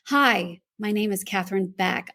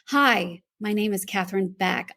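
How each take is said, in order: First: It sounds confident and authoritative, demanding attention. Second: The same.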